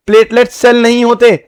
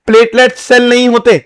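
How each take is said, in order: Both takes have the same delivery.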